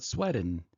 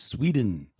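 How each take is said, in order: First: "Sweden" said SWEH-den, with a short e like in "bed"; wrong Sweden. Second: "Sweden" said SWEE-den, with a long ee sound; correct Sweden. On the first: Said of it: "It's not Sweden". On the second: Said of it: "It's Sweden". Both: Shown as a demonstration.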